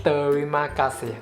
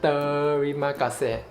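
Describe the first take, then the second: Both takes have the same delivery.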